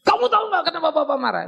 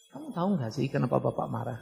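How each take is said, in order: First: Higher, louder and fast, as a scolding father; angry raised version. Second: Softer, low and calm, volume turned down; calm quiet version. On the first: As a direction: let the anger spill out loud and quick. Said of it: "suara bisa keras". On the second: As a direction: ask it gently, voice held down. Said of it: "turunkan volumenya". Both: Shown as a demonstration.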